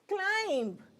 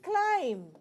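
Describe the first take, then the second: First: The b is sounded at the end. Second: The word ends on m with no b. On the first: The speaker calls it wrong. "So it is not climb" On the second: The speaker calls it right. "it is climb, and the B will be removed"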